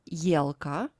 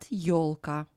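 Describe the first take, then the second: First: The first vowel is pronounced as 'ye'. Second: The first vowel is pronounced as 'yo'. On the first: The speaker calls it wrong. "No word елка" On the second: The speaker calls it right. "but елка"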